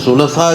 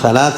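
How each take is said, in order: First: The first vowel is an 'u' sound. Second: The first vowel is an 'a' sound. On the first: The speaker calls it right. "സുലസാ എന്ന് വായിക്കണമെന്നാണ്" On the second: The speaker calls it wrong. "നമ്മൾ സലാസ എന്ന് വായിക്കുന്നതല്ല അതിന് കൃത്യത"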